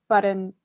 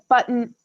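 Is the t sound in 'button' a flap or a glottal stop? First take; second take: flap; glottal stop. First: The t is a quick flap. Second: The t is a glottal stop. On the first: "button with a flap" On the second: "button with a, a glottal stop"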